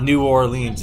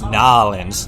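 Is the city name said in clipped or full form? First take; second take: full; clipped. First: The name is said in its full standard form. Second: The name is said in a clipped slang form. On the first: The speaker calls it wrong. "It's not New Orleans" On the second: The speaker calls it right. "You gotta throw that slang in there"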